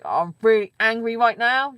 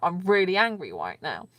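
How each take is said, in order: First: It is said louder, with an angry tone. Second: It is said calmly, at normal volume.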